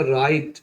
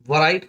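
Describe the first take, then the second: First: "राइट" starting straight on R; silent w. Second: "वराइट" with a V/W syllable before R; w sounded. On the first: Teacher giving the correct reading, "राइट" with silent W. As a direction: say "राइट" without any W. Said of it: "बोलेंगे राइट". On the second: Teacher warning against a reading, W sounded in "वराइट". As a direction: say "वराइट" as va-rait. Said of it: "वराइट ना बोल के". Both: Shown as a demonstration.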